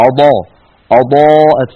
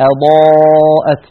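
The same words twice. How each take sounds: First: أضاءت with a full, dark hamza; heavy hamza. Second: أضاءت slow, with a thin unrounded hamza; slow model أضاءت; light hamza. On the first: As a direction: darken the opening vowel of أضاءت. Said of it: "فيفخم الهمزة آ". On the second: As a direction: keep the hamza of أضاءت light beside the heavy ض. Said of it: "كقولنا مثلًا". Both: Shown as a demonstration.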